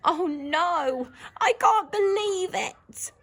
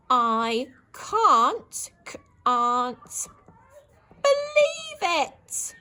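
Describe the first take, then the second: First: Higher, slower gasp of disbelief; a worried inner cry; shocked disbelief. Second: High, loud wail stretched out slowly; dismayed disbelief. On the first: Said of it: "she's sort of thinking in her head". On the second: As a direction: cry out in slow horror. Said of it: "Exclamation mark". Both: Shown as a demonstration.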